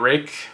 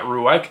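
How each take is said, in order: First: The name sounds like the word 'rake'. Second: The name sounds like 'roo-ike', with more syllables. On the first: The speaker calls it right. "which I believe that's the pronunciation" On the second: The speaker calls it wrong. "not ruike"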